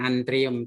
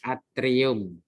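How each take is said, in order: First: An n sound follows the first vowel. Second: No n sound follows the first vowel. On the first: The speaker calls it wrong. "bukan antrium" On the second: The speaker calls it right. "tapi atrium"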